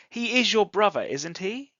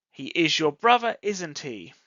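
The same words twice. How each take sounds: First: "isn't he" lifts up on "he"; rising tag. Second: "isn't he" drops down on "he"; falling tag. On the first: Teacher gives present simple example, rising tag. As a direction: ask "isn't he" as a real question, pitch climbing. Same example, questioning tune. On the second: Teacher shows students the brother example, falling tag. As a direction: say "isn't he" as a sure statement, pitch falling. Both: Shown as a demonstration.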